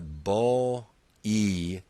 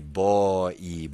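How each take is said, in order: First: The word is slowly stretched into two vowels. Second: The word is said quickly as one syllable.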